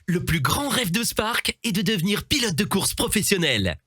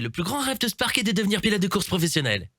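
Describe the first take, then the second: First: There is a short pause after 'Spark'. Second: It is rushed with no pause after 'Spark'. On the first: The speaker calls it right. "essaie de faire une pause" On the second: The speaker calls it wrong. "tu as hâte d'avoir fini la phrase, tu veux aller trop vite"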